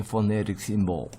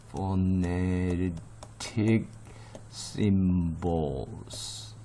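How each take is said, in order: First: Said in the usual way. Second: Phonetic symbols drawn out very slowly, syllable by syllable; slow pronunciation demo. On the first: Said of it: "발음을 어려워하는". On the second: Shown as a demonstration. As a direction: stretch each part of phonetic symbols, pausing between the words. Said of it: "발음을 어려워하는 바람이". (phonetic symbols를 음절마다 길게 늘여 천천히)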